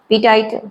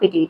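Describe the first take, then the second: First: The second syllable has an 'eye' vowel. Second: The second syllable has an 'ee' vowel. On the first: The speaker calls it wrong. "पिटाइट नहीं कहेंगे इसको" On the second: The speaker calls it right. "सही pronunciation है इसका पिटीट"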